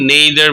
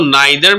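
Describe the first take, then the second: First: The first vowel sounds like 'eh'. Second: The first vowel sounds like 'eye'. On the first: "नेदर भी पढ़ते हैं इसको" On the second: "इसको नाइदर भी पढ़ सकते हैं"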